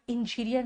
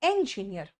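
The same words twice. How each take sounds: First: "इंजीनियर" opening with short I, "in-"; IN- mispronunciation. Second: "इंजीनियर" opening with E as in "pen"; EN- pronunciation. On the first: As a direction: model the faulty "in-" opening of "इंजीनियर". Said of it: "आप इंजीनियर नहीं हो". ("इंजीनियर" की शुरुआत इन से) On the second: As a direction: model "इंजीनियर" as "en-gineer". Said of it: "आप इंजीनियर". ("इंजीनियर" की शुरुआत एन से) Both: Shown as a demonstration.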